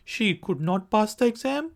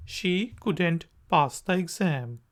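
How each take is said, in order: First: Said in the usual way. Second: Couldn't run together, quick; couldn't contraction. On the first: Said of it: "could not की formal contraction है couldn't". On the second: Shown as a demonstration. Teacher contrasting the two forms. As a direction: clip it to couldn't. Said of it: "formal contraction है couldn't".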